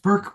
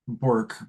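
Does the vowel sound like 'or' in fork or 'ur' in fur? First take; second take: ur; or. First: The vowel sounds like 'ur' in fur. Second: The vowel sounds like 'or' in fork. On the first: It is the name's real pronunciation. The speaker calls it right. "but it's actually pronounced Burke" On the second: It is read as the spelling suggests. The speaker calls it wrong. "but it looks like Bork"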